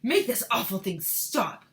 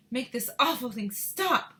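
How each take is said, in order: First: Mister Teavee. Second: Higher, loud demanding woman; Missus Teavee. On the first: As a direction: order it slowly as a man. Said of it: "better read it in a male voice". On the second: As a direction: order it stopped in a woman's voice. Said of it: "My Missus Teavee voice". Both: Acted.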